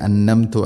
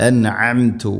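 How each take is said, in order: First: അന്നംതു with the ain merged into a doubled n; അന്നംതു said as a plain double n; wrong reading. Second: അൻഅംതു with a clear n then a throaty ain; careful അൻഅംതു separating n and ain; correct ain. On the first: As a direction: demo the mistaken അന്നംതു, no throat sound. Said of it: "ഇങ്ങനെ ഓതരുത്". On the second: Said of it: "അല്ല". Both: Shown as a demonstration.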